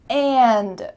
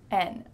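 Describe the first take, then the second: First: The whole word is said with its final D. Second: The word is reduced to a lone N sound.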